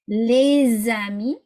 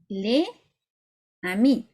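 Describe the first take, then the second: First: The final consonant links into the next word. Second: The words are said apart without linking. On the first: The speaker calls it right. "this is what it would sound like" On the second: The speaker calls it wrong. "if you read it, those words separately"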